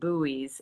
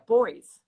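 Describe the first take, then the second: First: The word is said the American way. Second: The word is said the Australian way. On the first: "I think it's where we say it buoys" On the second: "they pronounce it differently in Australia"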